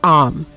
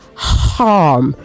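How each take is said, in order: First: The word begins without any h sound. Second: The word begins with a clear h sound. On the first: The speaker calls it wrong. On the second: The speaker calls it right. "the emphasis is on the H"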